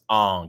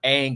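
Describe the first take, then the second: First: The vowel sounds like the 'o' in 'long'. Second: The vowel sounds like the 'a' in 'bang'. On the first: This is the name as the film said it. "it was Ong" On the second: This is the name as the characters originally said it. "it was not Aang"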